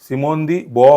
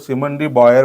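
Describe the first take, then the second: First: The surname ends with a plain vowel. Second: The surname ends with an r sound. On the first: The speaker calls it right. "Correct उच्चार" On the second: The speaker calls it wrong. "असं काही होत नाही"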